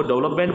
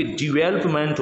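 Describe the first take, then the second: First: डेवलपमेंट starting with 'dev'; common mispronunciation. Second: डेवलपमेंट starting with a short 'di'; correct pronunciation. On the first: Teacher quotes what we usually say, डेवलपमेंट with 'dev' first. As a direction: say डेवलपमेंट as DEV-lap-ment. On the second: Teacher corrects learners, डेवलपमेंट as di-VEL-up-ment. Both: Shown as a demonstration. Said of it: "जबकि डेवलपमेंट होता है ये".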